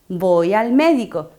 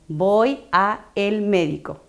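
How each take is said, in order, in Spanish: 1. La preposición y el artículo se unen en una sola palabra. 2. La preposición y el artículo se dicen como dos palabras. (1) "Esta es la correcta pronunciación"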